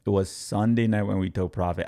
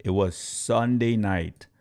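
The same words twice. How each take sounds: First: Said in the usual way. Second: Slowed down, leaning on Sunday; slow and deliberate, stressing Sunday; slow emphasis. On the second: Shown as a demonstration. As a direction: spell out Sunday night slowly.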